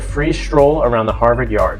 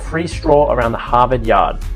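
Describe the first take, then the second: First: It is said in a general American accent. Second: It is said in a Boston accent.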